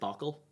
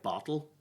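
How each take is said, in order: First: The middle consonant sounds like a k. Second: The middle consonant is a clear t sound. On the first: "she says bockle" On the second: "could she not say maybe words like bottle?"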